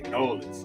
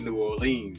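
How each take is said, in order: First: The name is squeezed into two short syllables. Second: The name is said in full, every syllable. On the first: The speaker calls it right. "Gotta say Nolans" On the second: The speaker calls it wrong. "can't say New Orleans"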